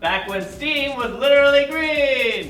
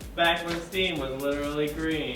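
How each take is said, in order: First: It is said in a plain, neutral tone. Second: It is said in a sad, gloomy tone. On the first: "Say it one more time" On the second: "Now do it sad"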